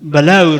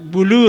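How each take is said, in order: First: It is said in an Afghan Persian accent. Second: It is said in an Iranian Persian accent. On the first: "ما در افغانستان یا در لهجه برخ بلور میگن" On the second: "بلوری که در ایران به کار میره"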